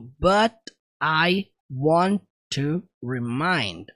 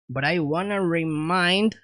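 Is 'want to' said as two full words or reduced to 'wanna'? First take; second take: full words; wanna. First: Want to is said as two separate full words. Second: Want to is blended into one reduced word, wanna. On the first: "Percebam a junção do but I want to remind" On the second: "foi dessa forma que ele pronunciou"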